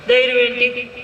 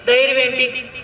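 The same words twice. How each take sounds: The two takes are said the same way.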